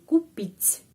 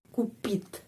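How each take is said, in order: First: The final T is soft. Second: The final T is hard. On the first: "T menjadi lemas... Jadi pengucapannya kupit, begini, kupit" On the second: "Kalau tidak ada tanda pelemah, jadi kupit, kupit, ya, T keras"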